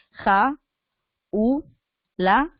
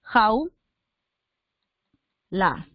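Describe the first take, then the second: First: "ja, u, la", three syllables with pauses between; split into three syllables. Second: "Jau" as one syllable, then a separate "la"; split into two syllables. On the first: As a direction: say "ja, u, la" with the a and u apart. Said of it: "si tú separaras así". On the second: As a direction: say "Jau, la" with a long pause between. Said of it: "la separación correcta es la siguiente". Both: Shown as a demonstration.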